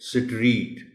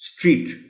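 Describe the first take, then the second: First: A vowel is inserted between the s and t. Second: The opening consonants are said together in one go. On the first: The speaker calls it wrong. "हालांकि S और T के दरमियान कोई vowel नहीं है" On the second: The speaker calls it right. "So the correct pronunciation of the word is स्ट्रीट"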